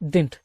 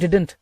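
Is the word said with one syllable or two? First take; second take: one; two. First: The word is said as one short syllable. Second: The word is said as two separate syllables. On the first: "இதை வந்து நீங்க டிண்ட்னு உச்சரிச்சுக்கலாம்" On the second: "இல்ல டிடன்ட் அப்படின்னு கூட உச்சரிச்சுக்கலாம்"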